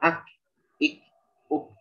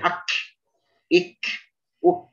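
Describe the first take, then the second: First: The final k has a light puff of air. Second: The final k has a strong, exaggerated air burst. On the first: The speaker calls it right. "Kita mengucapkan ak, ik, uk itu sudah cukup" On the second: The speaker calls it wrong. "Tidak perlu sampai ak, ik, uk gitu"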